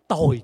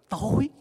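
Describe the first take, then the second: First: The word is said with a falling tone. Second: The word is said with a rising tone. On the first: It means wretched. "Mà để dấu huyền thì nó trở thành gì?" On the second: It means dark. "Để dấu sắc vô thì nó rất là gì?"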